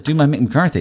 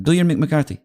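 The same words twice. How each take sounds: First: High, loud incredulous query; retold disbelief. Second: High imitated manager's accent; Mourinho. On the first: Comic is asked to perform for the manager, retold disbelief. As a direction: echo the request as a startled question. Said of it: "I was like". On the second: Manager repeats his request to the comic, imitated accented insistence. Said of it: "And he went".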